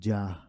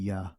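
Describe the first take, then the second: First: The word begins with a J sound. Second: The word begins with a Y sound. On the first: The speaker calls it wrong. "it would be no uh" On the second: The speaker calls it right. "It would be Yah"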